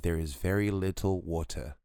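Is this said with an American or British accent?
British. It is said with a British accent.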